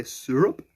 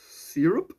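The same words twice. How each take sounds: First: "syrup" with a SUR first syllable; Canadian-style syrup pronunciation. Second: "Syrup" with a SEER first syllable; own-style syrup pronunciation. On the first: Retold or imitated. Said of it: "you guys say syrup". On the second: Shown as a demonstration. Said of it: "And then you guys say syrup".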